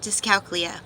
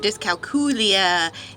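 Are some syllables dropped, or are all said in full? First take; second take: dropped; full. First: It is clipped, with syllables dropped, Southern style. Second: It is said with every syllable pronounced fully.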